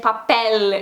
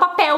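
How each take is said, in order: First: The final L is pronounced as a clear L. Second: The final L is pronounced like a U. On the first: "ao invés de papel, né, falar o L" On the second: "e falo papel U"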